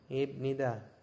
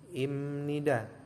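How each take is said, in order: First: The consonant before nida is a b sound. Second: The consonant before nida is an m sound. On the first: "kalau misalkan teman-teman membaca dari tulisannya, itu adalah ibnida" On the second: "dikenakan hukum bacaan menjadi imnida"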